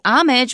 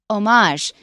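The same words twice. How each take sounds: First: It is said with a plain English pronunciation. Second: It is said with a French-like pronunciation. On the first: "we shouldn't say homage" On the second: "since it's from French, ... we should say homage"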